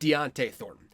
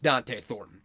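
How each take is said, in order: First: The first name sounds like Deontay. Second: The first name sounds like Dante. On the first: The speaker calls it wrong. "it's not Deontay Thornton" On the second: The speaker calls it right. "It's just Dante Thornton"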